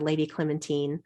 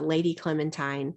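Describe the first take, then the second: First: It is said the British way. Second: It is said the American way.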